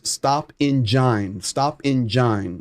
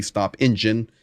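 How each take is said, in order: First: "engine" said slowly as "in-JINE"; Russian-accented "engine". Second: Said in the usual way. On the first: Retold or imitated. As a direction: draw out "engine" with a long "eye" in the last syllable, imitating a Russian. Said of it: "in that Russian accent there, he says". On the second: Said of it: "which of course we know to be".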